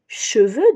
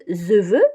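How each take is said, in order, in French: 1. Le premier son est un « ch » net. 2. Le premier son est un « z » zézayé. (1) "cheveux donc" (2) "Le fameux zeveux"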